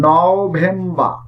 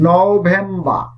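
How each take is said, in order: The two takes are said the same way.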